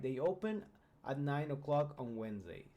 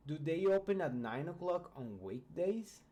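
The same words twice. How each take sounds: First: Plain statement intonation, no rise at the end; statement tune. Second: Rising yes-no question intonation; question tune. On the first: Teacher contrasting a statement with a question, flat tune. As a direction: state it flatly, as a fact. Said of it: "we will have just a statement". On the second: Teacher showing students a question, rising tune. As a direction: ask it with the tune going up at the end. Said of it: "we change the intonation". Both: Shown as a demonstration.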